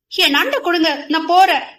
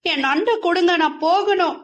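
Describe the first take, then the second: First: Higher, louder, cross demand; glaring demand. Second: Higher, teary pleading for the crab; teary plea. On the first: Girl glares and demands her crab back, cross. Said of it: "என முறைத்தாள்". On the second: Girl begs the teasing boy for her crab, teary. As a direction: ask with tears welling up. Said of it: "கண்ணில் கண்ணீர் தழும்ப". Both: Acted.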